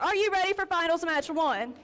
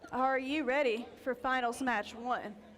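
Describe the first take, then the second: First: It is said at a louder volume. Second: It is said at a low volume.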